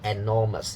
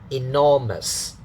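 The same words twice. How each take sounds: First: The first syllable begins with an 'e' vowel. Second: The first syllable begins with an 'i' vowel. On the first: The speaker calls it wrong. "don't say enormous. It's bad pronunciation" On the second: The speaker calls it right. "In, enormous"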